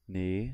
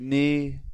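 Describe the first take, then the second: First: The pitch rises from start to end. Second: The pitch stays level throughout. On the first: "up, like rising"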